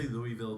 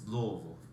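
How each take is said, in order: First: The name is said with every syllable clear. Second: The name is mumbled into few syllables. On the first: The speaker calls it wrong. "Don't say Louisville" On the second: The speaker calls it right. "you're mumbling some words and you're trying to say Louisville"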